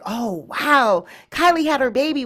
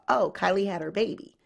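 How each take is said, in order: First: It is said with excitement. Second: It is said flatly, as an afterthought.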